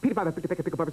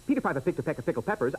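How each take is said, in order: First: It is said at a very fast pace. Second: It is said at a fast pace.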